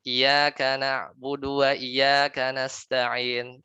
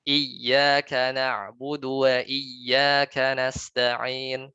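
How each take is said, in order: First: Slow "Iyyaka" with single short y, no doubling; without tashdid. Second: Very slow "Iyyaka" with doubled, held y; correct with tashdid. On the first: Ustaz showing the reading without tashdid, slow chant. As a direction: recite "Iyyaka na'budu wa iyyaka nasta'in" slowly with "Iyyaka" as "iyaka". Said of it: "Tidak pakai tasdid". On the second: Ustaz giving the right reading after the wrong one, slow chant. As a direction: recite "Iyyaka na'budu wa iyyaka nasta'in" very slowly, doubling the y. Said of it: "Harusnya kan". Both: Shown as a demonstration.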